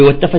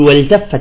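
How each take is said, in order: First: The l is dropped and the t doubled. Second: The l is clearly pronounced before the t. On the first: The speaker calls it wrong. "ما يقول عربي والتفت" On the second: The speaker calls it right. "يقول والتفت الساق بالساق"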